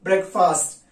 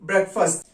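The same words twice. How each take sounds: First: ब्रेकफास्ट with a long open aa in the second syllable, brek-faast; wrong pronunciation. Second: ब्रेकफास्ट with a short reduced second vowel, brek-fust; correct pronunciation. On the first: Teacher shows students the mispronunciation ब्रेकफास्ट as brek-faast. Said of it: "ऐसे नहीं बोलना है". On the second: Teacher models the correct ब्रेकफास्ट as brek-fust for students. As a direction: say ब्रेकफास्ट the right way, with a light quick fust. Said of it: "इसको आप ब्रेकफास्ट बोलेंगे". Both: Shown as a demonstration.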